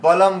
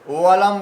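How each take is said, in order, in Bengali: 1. শব্দটি b ধ্বনি দিয়ে শুরু হয়। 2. শব্দটি w ধ্বনি দিয়ে শুরু হয়। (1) "বলম বলবেন" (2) "ওয়ালাম বলবেন না"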